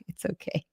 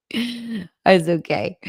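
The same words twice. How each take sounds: First: Whispered reassurance to a crying viewer; soft whisper. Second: Drawn-out, tender "It's okay"; slow reassurance. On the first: Whispering "It's okay" to a viewer moved to tears. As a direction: breathe it out gently, barely voiced. Comforting a viewer who cried. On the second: Slowly reassuring a viewer who cried over her comment. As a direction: stretch it out slowly to soothe. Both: Real, not acted.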